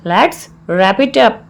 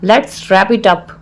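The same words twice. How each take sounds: First: Slow, word-by-word teaching delivery; slow repeat. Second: Said in the usual way. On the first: Shown as a demonstration. Teacher repeats the English phrase for learners, slowly.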